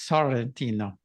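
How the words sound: It is said the Italian way, R rolled.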